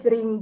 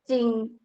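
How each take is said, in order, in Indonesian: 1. Diawali j dan bunyi r tetap ada. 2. Diawali ch dan bunyi r dihilangkan. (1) "kalau orang Indonesia pasti bacanya jering" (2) "tapi dia dibacanya cing"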